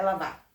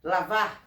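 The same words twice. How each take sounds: First: "lavar" without its final R, ending on a stressed open "a"; dropped final R. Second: Said in the usual way. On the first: Shown as a demonstration. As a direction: say "lavar" as "lavá", eating the last R. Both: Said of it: "Estão comendo o R do final".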